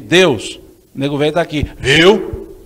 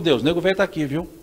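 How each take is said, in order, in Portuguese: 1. Soa como um pedido suplicante de atenção. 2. Soa como uma oferta calma de disponibilidade. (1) "não com a mesma pontuação" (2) "Se o senhor precisar de mim, só me chama"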